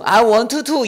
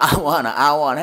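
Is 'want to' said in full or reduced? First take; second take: full; reduced. First: The words want to are said in full. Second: The words want to are reduced to wanna. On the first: The speaker calls it wrong. "아니라" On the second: The speaker calls it right.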